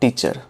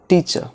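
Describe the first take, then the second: First: An r sound is pronounced in the word. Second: No r sound is pronounced in the word. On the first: The speaker calls it wrong. "it is not teacher" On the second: The speaker calls it right. "R is silent over here"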